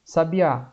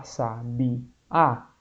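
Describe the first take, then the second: First: Said in the usual way. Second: "sabiá" slowly split into sa, bi, á; syllable by syllable. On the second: Shown as a demonstration. Teacher showing students the strongest syllable, "sabiá" slowly syllable by syllable. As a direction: say "sabiá" in separate syllables, slow, lower, ending on a drawn-out á. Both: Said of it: "qual é a sílaba mais forte".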